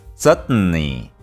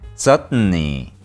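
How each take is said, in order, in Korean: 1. 가운데 t는 코로 터져요. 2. 가운데 t는 코로 터져요.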